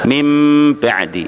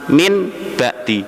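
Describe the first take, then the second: First: The first word ends with an m sound. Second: The first word ends with an n sound. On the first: This is how the phrase is recited. "tapi dibaca mim ba'di" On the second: This is how the phrase is written. "tulisannya min, nun mati"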